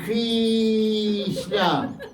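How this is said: It is said with an Italian accent. "in Italy they say Krishna"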